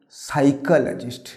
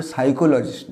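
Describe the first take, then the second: First: "সাইকোলজিস্ট" slow, as sai-ka-la-jist; correct pronunciation. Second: "সাইকোলজিস্ট" with round o's, sai-ko-lo-jist; wrong pronunciation. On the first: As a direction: say "সাইকোলজিস্ট" slowly with weak "kə-lə". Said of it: "উচ্চারণ হবে". ("সাইকোলজিস্ট" ধীরে, সাই-কা-লা-জিস্ট) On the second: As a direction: say "সাইকোলজিস্ট" with full "ko-lo". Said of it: "সাইকোলজিস্ট না". ("সাইকোলজিস্ট" ভুল উচ্চারণে, সাই-কো-লো-জিস্ট) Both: Shown as a demonstration.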